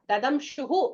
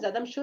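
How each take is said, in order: First: The word ends with a breathy 'hu' sound. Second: The word ends with an 'r' sound. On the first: The word stands alone, split from the next word. "Dadamshuhu becomes Dadamshur on joining with the next word" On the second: The word is joined to the following word. "on joining with the next word"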